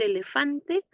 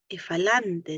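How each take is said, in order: First: The word begins with the sounds 'ele'. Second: The word begins with the sounds 'efa'. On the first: The speaker calls it right. "En vez de decir elefante" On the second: The speaker calls it wrong. "dice efalante"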